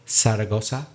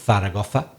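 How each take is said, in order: First: The first sound is an 's' sound. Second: The first sound is a 'th' sound. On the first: "if you say Zaragoza, then you do not have the th sound" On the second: "if you don't say Zaragoza"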